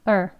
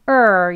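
First: It is short, low and weak. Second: It is loud, high and long. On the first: The syllable is unstressed. "강세가 없는 경우" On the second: The syllable is stressed. "강하게 소리도 높게 그리고 길게"

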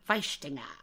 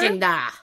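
First: It is said in a German accent. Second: It is said in a plain, non-German accent.

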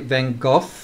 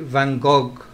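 First: 'Gogh' ends with an 'f' sound. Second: 'Gogh' ends with a hard 'g' sound. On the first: This is how British people say it. "the British say Van Gogh, like almost like coughing" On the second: This is how French people say it. "The French say Van Gogh"

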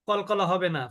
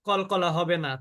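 No difference in how they are said.

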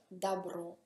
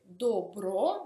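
First: The first vowel sounds like 'a'. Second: The first vowel sounds like a full 'o'. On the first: This is how the word is actually said. "ma si pronuncia dabro" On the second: This is how the word is written. "si scrive dobro"

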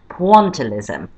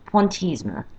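First: It is pronounced with an English accent. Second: It is pronounced with a French accent.

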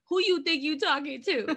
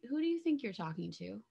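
First: It is said in an agitated, confrontational tone. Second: It is said in a calm, collected tone.

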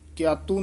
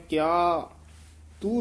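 First: The two words are run together without break. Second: A slight break follows the first word. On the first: The speaker calls it wrong. "ਕਿਆਤੂ ਨਹੀਂ ਕਹਿਣਾ" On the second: The speaker calls it right. "ਕਿਆ ਤੇ ਯਮਕ ਲਾ ਦੇਣੀ ਹੈ"

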